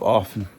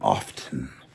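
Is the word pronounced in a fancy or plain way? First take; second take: plain; fancy. First: It uses a plain, everyday pronunciation. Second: It uses a fancier, more formal pronunciation. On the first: "instead of often" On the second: "listen to me being fancy, saying often"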